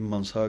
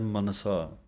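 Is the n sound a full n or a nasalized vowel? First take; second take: nasalized; full n. First: The n is reduced to a nasalized vowel. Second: A full n consonant is pronounced. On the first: The speaker calls it wrong. "ਕਈ ਮਨਸਾ ਕਹਿ ਜਾਂਦੇ ਹਨ ਟਿੱਪੀ ਲਾ ਕੇ" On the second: The speaker calls it right. "ਪੂਰਾ ਨੰਨਾ ਲਾਉਣਾ ਹੈ"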